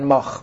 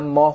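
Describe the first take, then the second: First: The word ends with a harsh kh sound. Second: The word ends with a soft h sound. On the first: "توی سغدی ها رو مثلا ماه رو میگن ماخ" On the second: "ماه رو میگن"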